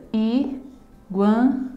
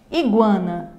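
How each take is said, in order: First: "Iguana" in three slow beats: i, gua, na; syllable by syllable. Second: Said in the usual way. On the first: Shown as a demonstration. Teacher showing three breaths in a word, syllable by syllable. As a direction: pause after each syllable of "Iguana". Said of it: "eu emito também três expirações na pronúncia". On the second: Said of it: "a mesma coisa".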